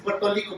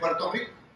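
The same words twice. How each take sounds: First: The r sounds are said as l sounds. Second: The r sounds are said as trilled r sounds. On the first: This is how Puerto Ricans say it. "dicen Puerto Rico" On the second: This is the form they cannot say. "no pueden decir Puerto Rico"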